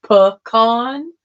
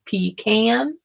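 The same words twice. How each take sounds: First: Pecan as puh-KAHN, broad ah; pecan, weak first vowel, kahn. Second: Pecan as pee-KAN, short a at the end; pecan, pee then can. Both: Shown as a demonstration. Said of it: "How do you say that word?".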